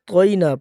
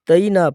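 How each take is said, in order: First: The t sound is heavy and thick. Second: The t sound is light and thin. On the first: The speaker calls it right. "त्वा मोटे हरूफ में से है तो इसको मोटा करेंगे" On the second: The speaker calls it wrong. "ता नहीं कि हम इसको तईना पढ़ते हैं"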